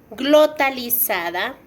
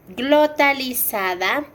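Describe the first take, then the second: Both takes have the same delivery.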